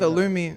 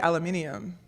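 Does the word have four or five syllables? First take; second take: four; five. First: It is said with four syllables. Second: It is said with five syllables. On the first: "the thing that gets me is aluminum" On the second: "We say aluminium"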